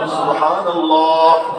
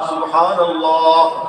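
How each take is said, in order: Both takes have the same delivery.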